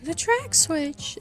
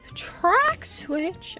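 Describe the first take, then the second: First: It is said in a normal speaking voice. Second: It is said in a high cartoon-mouse voice. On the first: "except like in a Mickey voice" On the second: "Wait, can I?"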